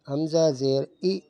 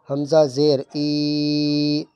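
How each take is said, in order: First: The final vowel is cut off with a jerk. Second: The final vowel is stretched out long. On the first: "ये झटका दे रहा हूँ मैं" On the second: "ये गलत हो रहा है, खींचना नहीं है"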